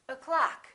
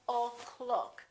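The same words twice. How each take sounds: First: The first vowel is a reduced uh sound. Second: The first vowel is a full O sound. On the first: The speaker calls it right. "So we say o'clock" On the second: The speaker calls it wrong. "We don't say o'clock"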